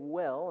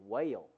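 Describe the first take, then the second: First: The vowel is short and plain. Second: The vowel is drawn out, southern style.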